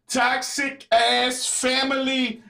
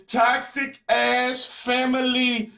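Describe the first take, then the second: First: "Toxic ass family" repeated slowly, each word weighted; slow emphasis. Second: "toxic ass family" drawn out slowly, each word weighted; slow emphasis. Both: Real, not acted. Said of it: "Yeah, I said it".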